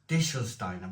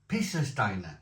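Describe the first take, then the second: First: The name begins with a D sound. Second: The name begins with a P sound. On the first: The speaker calls it wrong. "I was pronouncing this with a D" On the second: The speaker calls it right. "it's a P"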